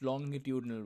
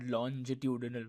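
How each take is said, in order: First: The first syllable sounds like 'long'. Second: The first syllable sounds like 'lonj'. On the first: The speaker calls it right. "it is pronounced longitudinal waves ... It's long" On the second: The speaker calls it wrong. "not longitudinal waves ... not longe"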